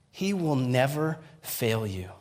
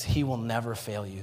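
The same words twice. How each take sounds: First: Slow, weighted NEVER, then a pause; measured, emphatic restatement; slow, deliberate repeat. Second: Said in the usual way. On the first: Real, not acted. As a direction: let "He will never fail you" land slowly. Repeats the words to live by.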